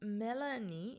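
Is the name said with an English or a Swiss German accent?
English. The name is said with English sounds. The speaker calls it wrong. "Melanie ist einfach nicht mein Name"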